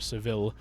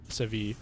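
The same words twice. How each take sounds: First: The double L is said as an L sound. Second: The double L is not said as an L sound. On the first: The speaker calls it wrong. "they don't pronounce this Le" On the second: The speaker calls it right.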